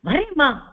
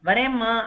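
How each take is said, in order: First: It is said in an irritated, tense tone. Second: It is said in a calm, ordinary tone. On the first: The person is annoyed and stressed about being late. "நம்மளுக்கு இரிட்டேட்டிங்கா இருக்கு" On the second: The person is simply on their way. "சாதாரணமா சொன்னோம்னா"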